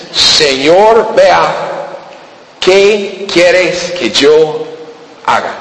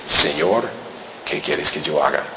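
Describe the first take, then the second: First: Trembling plea. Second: Much lower and much softer, a humble murmur; bow your head and ask it low. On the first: Saul fallen on the road, asking the Lord what to do, slow and pleading. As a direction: beg slowly, voice lifted in awe. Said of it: "Temblando dice". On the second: Saul humbly bowing before the Lord, low and soft. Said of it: "con toda humildad baja la cabeza". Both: Acted.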